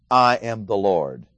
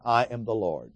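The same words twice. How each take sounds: First: Slow and weighty, each word set down; I am the Lord like a drumbeat; drumbeat emphasis. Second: Said in the usual way. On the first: Shown as a demonstration. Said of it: "just like a drumbeat going through these verses". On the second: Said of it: "So notice you have four times here".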